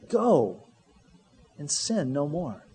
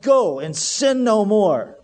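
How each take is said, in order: First: It is said in a gentle, reassuring tone. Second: It is said in a stern, warning tone. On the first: It is a release to live freely. The speaker calls it right. "It was, no" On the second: It is a threat against doing it again. The speaker calls it wrong. "I'd better not ever catch you in this type of situation again. That wasn't his tone"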